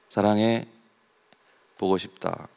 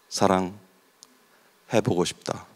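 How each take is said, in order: First: There is a pause after 사랑해. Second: There is a pause after 보고.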